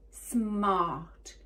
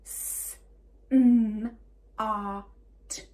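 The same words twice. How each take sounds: First: SMART run together as one word; blended word. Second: SMART split into s, m, ar, t; segmented phonics demo of "smart"; sounded out. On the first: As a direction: say SMART whole, falling at the end. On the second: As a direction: say S, a loud M, AR, T separately. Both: Shown as a demonstration. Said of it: "Let's do it again".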